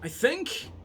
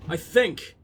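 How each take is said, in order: First: "I think?" with a high rising questioning tune; doubting question. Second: Said in the usual way. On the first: Shown as a demonstration.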